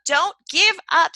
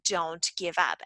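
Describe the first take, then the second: First: Higher and louder, stress on give; emphatic slogan. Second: Softer, lower, gently urging; soft encouragement. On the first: Shown as a demonstration. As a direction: punch it out like a rallying motto. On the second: Retold or imitated. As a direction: coax them quietly not to quit. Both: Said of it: "that was the whole point".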